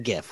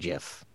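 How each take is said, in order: First: The word begins with a hard g sound. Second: The word begins with a soft j sound. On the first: The speaker calls it right. "We say GIF" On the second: The speaker calls it wrong. "We don't say GIF"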